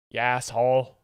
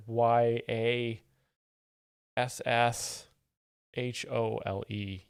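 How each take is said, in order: First: "Ya asshole" run into one word, yasshole; blended together. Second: Spelled letter by letter, "Y A S S H O L E". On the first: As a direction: slur "Ya asshole" into a single word, louder. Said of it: "you kinda have to blend those words together". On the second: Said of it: "blend those words together". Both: Shown as a demonstration.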